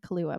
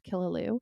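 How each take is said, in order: First: The name is pronounced like 'Kahlua'. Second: The name is pronounced like 'Killaloo'. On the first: The speaker calls it wrong. "I used to always say Kahlua" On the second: The speaker calls it right. "but I think it's Killaloo"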